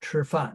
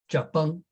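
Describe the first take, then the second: First: It is said in standard Mandarin. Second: It is said in southern Fujian Min.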